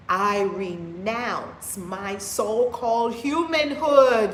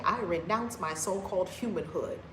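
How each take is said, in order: First: Slow, loud proclamation dwelling on humanhood; forceful declaration. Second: Said in the usual way. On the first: Shown as a demonstration. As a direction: declare each word slowly and loudly, like a vow. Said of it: "You have to tell yourself". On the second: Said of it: "I believe no more".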